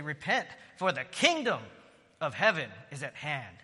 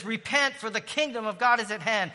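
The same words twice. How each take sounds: First: Said in the usual way. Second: Higher and louder, ringing out; fervent call to repent. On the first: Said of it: "quotes Jesus' words". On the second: Real, not acted. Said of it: "repeats Jesus' call, louder".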